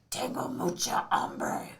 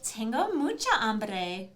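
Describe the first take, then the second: First: It is said in a gruff Batman voice. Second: It is said in a Valley Girl voice. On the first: "How would Batman say he's really hungry?" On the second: "how would a Valley Girl say it?"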